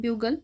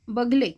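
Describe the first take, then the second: First: The first vowel is a 'yoo' sound. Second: The first vowel is a short 'a' sound.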